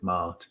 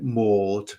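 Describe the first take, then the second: First: The name is said with a Southern Irish accent. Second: The name is said with an English accent. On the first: "my mama was a um, Southern Irish woman, so she used to pronounce it" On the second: "people in England go"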